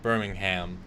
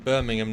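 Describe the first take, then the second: First: Birmingham is said the American way. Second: Birmingham is said the British way. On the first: The speaker calls it wrong. "not Birmingham. ... American" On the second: The speaker calls it right. "Well done, [name], for saying Birmingham"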